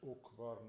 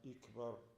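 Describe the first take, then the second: First: The word begins with a u vowel. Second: The word begins with an i vowel. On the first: "Not Ukbar" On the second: "not Ikbar"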